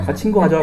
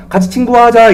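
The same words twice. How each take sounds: First: Said in the usual way. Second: A lightly voiced friendly puppy, a touch higher; puppy's invitation. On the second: Preacher voicing the dog that befriends Lazarus, lightly playful. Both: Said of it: "이랬거든요".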